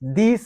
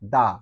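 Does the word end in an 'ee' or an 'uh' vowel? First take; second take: ee; uh. First: The word ends with an 'ee' vowel. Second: The word ends with an 'uh' vowel. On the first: The next word starts with a vowel. "দি sound" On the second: The next word starts with a consonant. "কখন আমরা বলবো দা"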